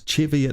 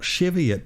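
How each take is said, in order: First: The word begins with a hard CH sound. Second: The word begins with a soft CH sound. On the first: The speaker calls it right. "with a hard C H there" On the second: The speaker calls it wrong. "not Cheviot"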